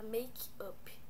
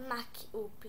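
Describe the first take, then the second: First: The first vowel sounds like 'ay'. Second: The first vowel sounds like 'ah'. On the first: The speaker calls it right. "você fala make-up" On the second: The speaker calls it wrong. "Por isso que você não fala MAC-up"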